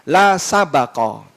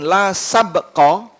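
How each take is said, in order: First: The b is followed by an a vowel. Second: The b is followed directly by the k. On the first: There may be no betting. "bisa dibaca baknya di fathah" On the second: There may be no competition. "bisa dibaca baknya disukun"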